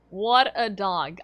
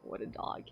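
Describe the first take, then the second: First: Louder and slow, drawn out; slow emphatic declaration. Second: Breathy whisper, barely audible; whispered aside. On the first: Streamer proclaiming to chat about her dog, loud and slow. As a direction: proclaim it with mock pride. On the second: Streamer whispering about her dog to chat, hushed. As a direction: murmur it to yourself in awe. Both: Real, not acted. Repeats phrase, differently.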